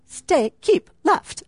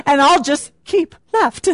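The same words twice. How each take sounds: First: A hint of a British sat-nav voice, slow; slow, half-hearted British accent on "keep left"; British GPS voice. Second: Said in the usual way. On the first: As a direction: lightly mimic a British GPS telling her to keep left. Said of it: "We have the little British accent. I can't do it very well". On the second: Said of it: "We have the little British accent".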